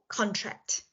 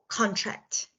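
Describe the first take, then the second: The two takes are said the same way.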